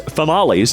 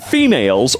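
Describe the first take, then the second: First: The word is said 'fa-mah-lees', rhyming with tamales. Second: The word is said 'fee-mails', the usual way.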